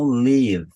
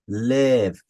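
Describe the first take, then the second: First: An extra vowel is added after the v. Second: The word ends cleanly on the v sound. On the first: The speaker calls it wrong. "e não live" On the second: The speaker calls it right. "aqui eu vou falar live, live"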